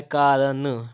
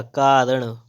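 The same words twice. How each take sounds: First: कारण with a dental n; wrong pronunciation. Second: कारण with retroflex ṇ; correct pronunciation. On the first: Teacher reading the error, कारण with dental n. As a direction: release कारण on plain n. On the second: Teacher correcting, कारण with retroflex ṇ. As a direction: curl the tongue back ending कारण. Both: Shown as a demonstration. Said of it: "तो क्या हो जाएगा".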